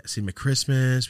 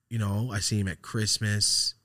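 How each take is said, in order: First: Christmas punched higher and louder; stress on Christmas. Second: Said in the usual way. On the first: Shown as a demonstration. Telling a friend how rarely they meet, stressing Christmas. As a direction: hammer the word Christmas home. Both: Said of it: "That's it".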